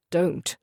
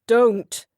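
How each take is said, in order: First: Said in the usual way. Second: Loud, higher booming Don't cut short and falling; booming refusal. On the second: A narrator's reading. Husband shutting his wife down with a booming Don't. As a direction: bark Don't so she flinches. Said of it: "The boom of his voice".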